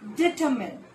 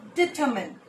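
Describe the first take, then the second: Both takes have the same delivery.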